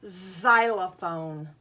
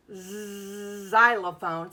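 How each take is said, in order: First: Xylophone said slowly, starting with a z sound. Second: Xylophone drawn out very slowly with a z start. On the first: Teacher shows the silent-looking X to pupils, slow z sound. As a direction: draw out xylophone from a buzzing z. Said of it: "doesn't sound like it". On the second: Teacher repeats the tricky word for children, slow and drawn out. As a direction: stretch every syllable of Xylophone. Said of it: "Sounds like it should start with the letter Z". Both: Shown as a demonstration.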